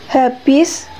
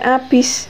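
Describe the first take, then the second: First: It begins with an audible h sound. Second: It begins directly with the vowel, no h. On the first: This is the standard pronunciation. The speaker calls it right. "lafal baku adalah lafal yang bebas dari ciri-ciri lafal dialek setempat" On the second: This is a dialect pronunciation. The speaker calls it wrong.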